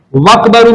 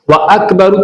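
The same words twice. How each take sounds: First: वकबरु run together, the alif dropped; wrong joined reading. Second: व अकबरु with the alif kept, a clear break before अकबरु; correct separate hamza. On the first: Teacher showing students the wrong reading, वकबरु merged as one word. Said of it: "में नहीं पढ़ सकता". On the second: Teacher showing students the right reading, व अकबरु kept apart. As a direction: say व, then a fresh अकबरु on its own vowel. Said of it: "तब भी मुझे पढ़ना है". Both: Shown as a demonstration.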